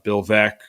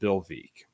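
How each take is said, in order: First: The surname rhymes with wreck. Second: The surname does not rhyme with wreck. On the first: The speaker calls it right. "Veeck is in re- uh, is in rec" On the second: The speaker calls it wrong. "mispronounced Bill Veek's name and said Bill Veek"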